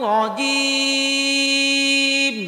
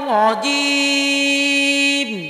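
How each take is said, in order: Both takes have the same delivery.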